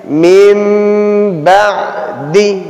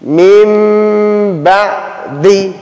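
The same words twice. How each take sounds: First: A nasal m sound is said before the b. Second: A nasal m sound is said before the b.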